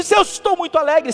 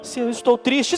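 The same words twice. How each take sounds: First: Higher, louder show of joy; demonstrating cheerful intonation; very happy demo. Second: Lightly demonstrated sadness; a touch of sadness, at everyday volume; understated sad example; sad demo. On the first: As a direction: lift it up as if very happy. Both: Shown as a demonstration. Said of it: "por causa da musicalidade".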